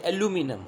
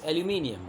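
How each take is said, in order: First: "aluminum" said the American way, without the i before -um; American pronunciation. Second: "aluminium" said the British way, ending in -i-um; British pronunciation. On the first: Teacher showing students how Americans say it, "aluminum" in American pronunciation. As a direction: say "aluminum" as a-LOO-mi-num, American style. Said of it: "in American accent they say aluminum".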